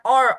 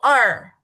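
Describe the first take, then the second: First: It has a rounded or vowel. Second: It has the standard Mandarin er vowel. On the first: The speaker calls it wrong. "Jangan or, ... terpengaruh oleh Fangyen" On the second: The speaker calls it right. "dua itu er"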